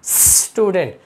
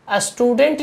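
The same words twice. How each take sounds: First: "स्टूडेंट" opening straight on a long hissed s; no initial vowel. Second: "स्टूडेंट" wrongly begun with a short "a", as a-student; added initial vowel. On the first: Teacher modelling correct speech, "स्टूडेंट" as sss-tudent. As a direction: hold the s of "स्टूडेंट" before "tudent". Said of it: "इसको पढ़ेंगे". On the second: Teacher showing the common mistake, "स्टूडेंट" said as astudent. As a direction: put an "uh" before the s of "स्टूडेंट". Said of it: "नहीं पढ़ेंगे". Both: Shown as a demonstration.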